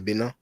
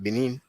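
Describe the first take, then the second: First: The name is said with French pronunciation. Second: The name is said with English pronunciation. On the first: "in French we say Benin" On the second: "in English you would pronounce it Benin"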